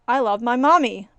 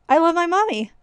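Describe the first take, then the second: First: It sounds frustrated and irritated. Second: It sounds excited and happy.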